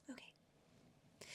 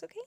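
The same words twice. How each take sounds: First: Breathy whispered echo, dropped way down. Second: Said in the usual way. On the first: Acted. Vlogger echoing herself to viewers in a whisper. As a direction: whisper it back to yourself like a secret aside.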